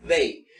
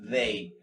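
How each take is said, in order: First: "they" with a strong, hard D at the start. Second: "they" with a soft voiced TH, tongue between the teeth. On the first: Teacher contrasting a hard D in "they". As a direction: hit the D of "they" firmly. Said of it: "normalmente es una D fuerte". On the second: Teacher showing the soft sound in "they". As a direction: ease into the "th" of "they". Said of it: "es una D mucho más suave". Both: Shown as a demonstration.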